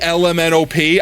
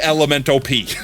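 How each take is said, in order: First: Each letter is said separately and clearly. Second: The letters are run together like one word. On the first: "I wouldn't say L M N O P" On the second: "I would say Elemento P"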